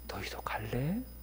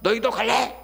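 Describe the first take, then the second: First: It is said in a faint, fading voice. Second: It is said in a strong, forceful voice. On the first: "다 들어가는 소리로" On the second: "힘찼을까요?"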